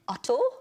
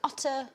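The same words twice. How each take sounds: First: The name is said in a Welsh accent. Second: The name is said in a plain accent.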